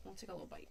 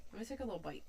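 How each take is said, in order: First: Much lower and softer, a silly deep rumble; goofy deep voice. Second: Said in the usual way. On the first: Pretend. Repeating her own line to chat as a joke, a silly deep voice. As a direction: drop into a mock deep voice for the bite.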